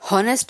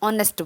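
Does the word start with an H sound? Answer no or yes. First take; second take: yes; no. First: The word begins with a breathy H sound. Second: The word begins directly with an O vowel. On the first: The speaker calls it wrong. "हॉनेस्ट नहीं बोलते हो" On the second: The speaker calls it right. "आप ऑनेस्ट बोलते हो यानी कि ओ का sound ज़्यादा प्रोमिनेंट होता है"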